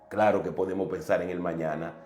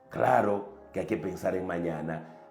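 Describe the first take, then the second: First: It is said at a normal pace. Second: It is said more slowly.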